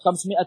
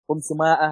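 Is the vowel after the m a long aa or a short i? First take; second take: short i; long aa. First: The vowel after the m is a short i. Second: The vowel after the m is a long aa. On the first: The speaker calls it right. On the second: The speaker calls it wrong.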